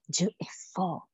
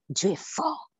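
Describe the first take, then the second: First: Slow, breathy whisper of "Dieu est fort"; whispered awe. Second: Said in the usual way. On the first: Real, not acted. Repeat dropped to a whisper.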